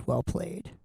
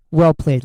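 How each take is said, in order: First: Dropped almost to nothing, under the breath; muttered repeat. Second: Said in the usual way. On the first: Real, not acted. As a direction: say it again to yourself, barely audible. Repeats the toast under his breath.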